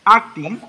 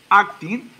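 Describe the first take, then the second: No difference in how they are said.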